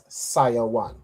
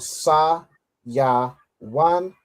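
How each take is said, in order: First: The syllables are run together smoothly. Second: Each syllable is said apart with pauses. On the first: "the way you put it together" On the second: "we split the parts"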